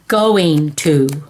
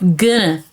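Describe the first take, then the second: First: It is said in full as going to. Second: It is reduced to two short syllables, gonna. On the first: "G O I N G" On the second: "That's spelled G U N N A"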